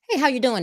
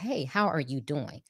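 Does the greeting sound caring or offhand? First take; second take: offhand; caring. First: It sounds quick and offhand, in passing. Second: It sounds caring and genuinely interested.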